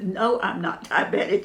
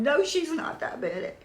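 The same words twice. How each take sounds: First: Said in the usual way. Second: Husband's voice done much higher, put-on; imitating Jim. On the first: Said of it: "And I said". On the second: Husband answering the nurse for her, high put-on voice. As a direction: mimic him backing her up in a raised voice. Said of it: "And Jim is going".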